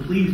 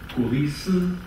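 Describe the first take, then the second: First: It is one syllable with a consonant cluster. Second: It is three syllables, each with a vowel.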